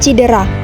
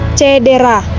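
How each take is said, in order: First: The first syllable has the vowel 'i'. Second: The first syllable has the vowel 'e'. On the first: The speaker calls it wrong. "bukan cidera" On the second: The speaker calls it right. "yang benarnya itu menggunakan E"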